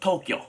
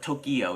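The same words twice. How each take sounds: First: The word is said with two syllables. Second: The word is said with three syllables. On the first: The speaker calls it right. "Tokyo has two syllables" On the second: The speaker calls it wrong. "It's not Tokyo"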